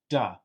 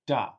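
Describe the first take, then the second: The two takes are said the same way.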